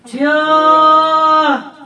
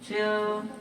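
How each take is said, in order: First: It is called out loudly and urgently. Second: It is said softly and without urgency.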